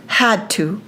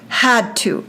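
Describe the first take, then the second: No difference in how they are said.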